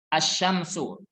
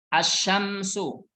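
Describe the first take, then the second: First: The 'l' is silent, going straight into 'sh'. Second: The same.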